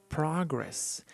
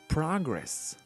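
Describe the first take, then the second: No difference in how they are said.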